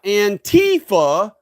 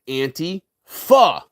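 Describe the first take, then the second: First: The stress falls on the middle syllable, 'ti'. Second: The stress falls on the first part, 'anti'. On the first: It hides that the name means against fascism. The speaker calls it wrong. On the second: The name means against fascism. The speaker calls it right.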